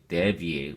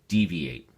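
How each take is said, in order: First: The first vowel is a short E sound. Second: The first vowel is a long E sound. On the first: The speaker calls it wrong. "we don't say deviate" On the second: The speaker calls it right. "the E is a long E sound"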